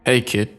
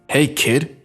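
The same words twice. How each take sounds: First: It is said in a calmer, plain way. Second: It is said more forcefully and aggressively.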